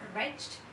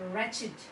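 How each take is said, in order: First: The ending is a plain t sound. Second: The ending is an extra id syllable. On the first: The speaker calls it wrong. "it is not wretched" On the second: The speaker calls it right. "it is wretched"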